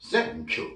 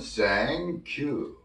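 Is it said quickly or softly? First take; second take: quickly; softly. First: It is said quickly. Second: It is said softly and smoothly.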